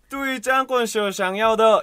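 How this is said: It is said with a Shanghai accent. "상하이 발음은"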